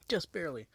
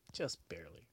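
First: Louder, higher repeat of just barely; emphatic. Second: Said in the usual way. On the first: Real, not acted. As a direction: punch it harder the second time.

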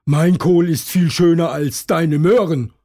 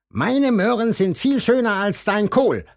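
First: High, louder rabbit voice; loud high-pitched rabbit bragging; Hasen Tom boasting back. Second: High bragging bunny voice; high-pitched boastful rabbit; Hasen Tim boasting. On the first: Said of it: "ruft Hasen Tom". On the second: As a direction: brag over the fence in a high voice. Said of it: "sagt Hasen Tim". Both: A narrator's reading.

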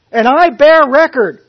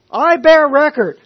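First: Loud, high ringing testimony; confident declaration. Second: Loud, high, BEAR stressed; confident declaration. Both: Retold or imitated. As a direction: proclaim it with full conviction. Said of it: "with full confidence".

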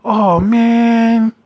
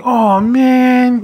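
First: Drawn-out, higher disappointed "Oh, man."; mocking the needy date at goodbye; mock clingy whine. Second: Mock disappointed sigh. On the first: Imitating a clingy dater's sad "Oh, man.". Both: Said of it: "You know how people do that".

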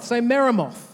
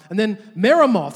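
First: Meremoth said again, higher, leading the crowd; prompting the crowd. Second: Meremoth said louder, as a name for the crowd to repeat; calling out a name. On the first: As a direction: lead the crowd in saying Meremoth. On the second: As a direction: call out Meremoth loudly for the echo. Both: Shown as a demonstration.

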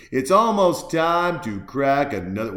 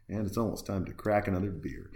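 First: Loud, emphatic repeat with stress on "almost"; louder restated. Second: Said in the usual way. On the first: Shown as a demonstration. Host announcing his next beer, louder and emphatic. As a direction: boom out "almost time to crack another".

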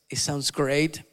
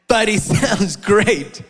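First: Said in the usual way. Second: Slow, loud and knowing; ironic emphasis. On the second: Shown as a demonstration. Pastor teasing the congregation about the dance, slow ironic emphasis. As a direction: lean hard on the irony, drawn out.

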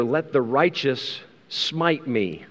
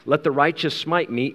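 First: Each word drawn out slowly; slow solemn read of Let the righteous smite me; slow scripture reading. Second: Said in the usual way. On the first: Acted. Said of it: "The Bible says here". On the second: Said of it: "This smiting is a particular kind of thing".

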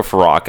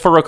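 First: Farouk said "fa-ROCK", open AH; alternative pronunciation. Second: Farouk said "fa-ROKE", long O; long "oh" in the second syllable of Farouk; alternative pronunciation. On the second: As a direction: say Farouk to rhyme with "broke". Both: Shown as a demonstration. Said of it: "I don't know".

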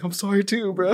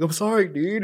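First: Mock emotional apology back. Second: Mock emotional apology. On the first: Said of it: "he starts to get emotional". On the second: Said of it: "I'm getting emotional".

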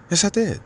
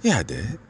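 First: "Yes, I did" dito bem mais agudo, "did" caindo firme; emphatic high yes. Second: Said in the usual way. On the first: Shown as a demonstration. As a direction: correct it with a much higher, firm "Yes, I did".

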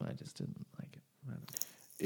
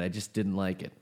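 First: Whispered repeat. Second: Said in the usual way. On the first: Real, not acted. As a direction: drop to a whisper. Repeats line, then whispers.

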